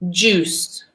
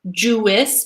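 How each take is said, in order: First: The i is silent, making one syllable. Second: The i is sounded, making two syllables. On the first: The speaker calls it right. "So this I is mute, is silent" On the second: The speaker calls it wrong.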